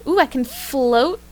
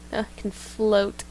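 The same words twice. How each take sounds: First: Slow and delighted; excited. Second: Said in the usual way. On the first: Acted. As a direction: marvel at floating. Discovers floating, delighted.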